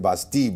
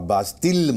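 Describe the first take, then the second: First: The word ends without any L sound. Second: The word ends with a clear L sound. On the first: The speaker calls it right. "बास्ती बोलिए" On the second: The speaker calls it wrong. "आप बास्तिल मत बोलिए"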